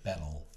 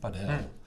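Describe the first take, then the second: First: The stress is on the first syllable. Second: The stress is on the last syllable. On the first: It follows the English origin of the word. The speaker calls it right. "Zou die nadruk moeten liggen op de eerste A" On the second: It follows the Spanish stress rule. The speaker calls it wrong. "dan is het altijd op de laatste lettergreep. Dus dan zeggen wij dus inderdaad padel"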